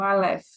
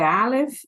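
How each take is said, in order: First: "Aleph" stressed on the open "eph"; "Aleph" with the weight at the end; stress on last syllable. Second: "Aleph" stressed on the A; "Aleph" with the weight up front; stress on first syllable. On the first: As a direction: say "Aleph" as a-LÉF, ending strong. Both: Shown as a demonstration. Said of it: "E a sua é Aleph ou Aleph?".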